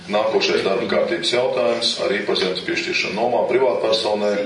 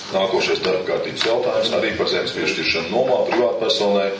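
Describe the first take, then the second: No difference in how they are said.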